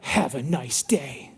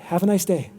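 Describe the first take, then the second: First: It is said in an offended, suspicious tone. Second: It is said in a warm, friendly tone. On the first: The reader takes the message as an insult. The speaker calls it wrong. "you read it differently" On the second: The writer sincerely wishes the reader well. The speaker calls it right. "really their heart was like"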